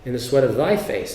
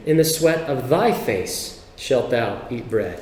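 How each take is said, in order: First: Thy pressed, short falling phrase; repeating the verse, stress on thy. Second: Thy leaned on, slow reading; scripture with the stress on thy. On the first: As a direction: underline thy again briefly. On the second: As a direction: slowly weigh the word thy. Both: Shown as a demonstration. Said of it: "if you emphasize the word thy".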